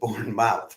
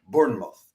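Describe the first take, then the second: First: The name is said the American way. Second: The name is said the British way. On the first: "rather than" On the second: "a Brit would probably pronounce it"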